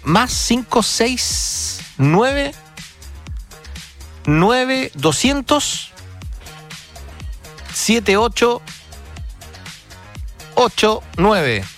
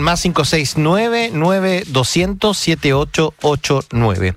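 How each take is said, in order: First: The number is said slowly. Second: The number is said fast.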